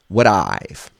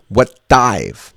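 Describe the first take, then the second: First: The words link fluently with a very light touch. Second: A heavy d sound starts the second word. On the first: The speaker calls it right. "It has to be fluent, very light" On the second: The speaker calls it wrong. "Don't say what dive"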